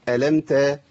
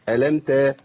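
Both takes have the same delivery.

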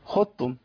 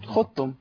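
First: The ض is fully merged into ت. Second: The same.

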